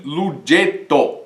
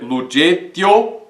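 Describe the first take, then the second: First: Lugeto slow, the E dropped into one syllable; elided reading. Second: Lugetio with every vowel sounded, E and O kept apart; unelided reading. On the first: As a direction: say lugeto, cutting the E. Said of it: "e sim lugeto". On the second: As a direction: say lugetio without eliding the E. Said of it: "nós não vamos dizer lugetio". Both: Shown as a demonstration.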